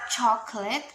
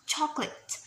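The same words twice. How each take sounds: First: The middle vowel is pronounced. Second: The middle vowel is dropped.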